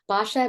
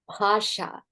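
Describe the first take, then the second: First: The first consonant has no puff of breath. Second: The first consonant has a puff of breath. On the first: The speaker calls it wrong. "I'm not saying it properly" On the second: The speaker calls it right. "There's a little bit more aspiration"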